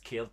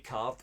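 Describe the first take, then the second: First: The vowel has an added air-like glide. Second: The vowel is a plain 'ar' sound. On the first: "it's caird" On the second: "We don't say card"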